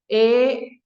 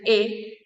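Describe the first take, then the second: First: The vowel is drawn out and held longer. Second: The vowel is held only briefly. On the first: "literalmente son E larga, una E extendida" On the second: "epsilon se pronuncia E"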